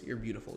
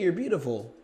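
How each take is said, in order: First: The pitch stays still and matter of fact. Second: The pitch swings up and down with energy. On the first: It sounds confident and certain. The speaker calls it right. "my voice became more still ... more matter of fact" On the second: It sounds eager and seeks approval. The speaker calls it wrong. "Instead of me saying, hey, you're beautiful ... you hear that?"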